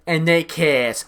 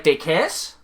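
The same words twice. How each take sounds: First: Flat expectation. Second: Baffled question. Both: Retold or imitated. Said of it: "I was like".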